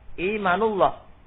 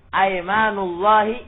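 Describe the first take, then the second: First: The word begins with an 'i' vowel. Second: The word begins with an 'a' vowel. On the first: This is the weaker form. The speaker calls it wrong. "dibaca kasrah lebih eh, lemah" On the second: This is the more eloquent form. The speaker calls it right. "dibaca fathah, itu lughatun fasihah"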